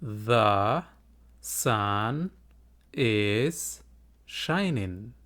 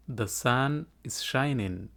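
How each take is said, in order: First: The sun is shining said one word at a time with a pause after each. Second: The sun is shining said smoothly as one phrase, very slow; slow whole sentence. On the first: Teacher models the sentence word by word for students. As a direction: space out every word of The sun is shining for learners to repeat. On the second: Teacher models the full sentence slowly for students to repeat. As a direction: glide through The sun is shining slowly without breaks. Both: Shown as a demonstration. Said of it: "Iga daba dheh".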